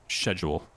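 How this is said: It is said with a British accent.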